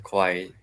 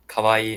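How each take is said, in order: First: Second "kawaii" as ko-wai; "kawaii" said kowai with short ending; the scary word. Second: First "kawaii" as ka-wa-ee; "kawaii" with three clear vowels; the cute word. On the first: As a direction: round the first vowel of "kawaii" to ko. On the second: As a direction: open "ka" and long ee in "kawaii". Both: Shown as a demonstration. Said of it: "sound totally different".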